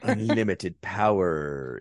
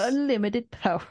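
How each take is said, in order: First: Slow drawn-out power. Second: Mock ad-style Palpatine. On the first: Shown as a demonstration. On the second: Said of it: "sounds like an advertisement".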